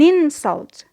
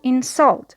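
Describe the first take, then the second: First: The stress is on the first syllable. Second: The stress is on the second syllable. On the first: It is used as a noun. "when it is a noun" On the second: It is used as a verb. "the stress is on the second syllable because it is a verb"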